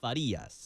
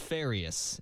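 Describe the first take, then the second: First: The name is said with a Cuban Spanish pronunciation. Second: The name is said with an English pronunciation. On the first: "how the Cubans say it" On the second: "I meant to tell you it's Farias"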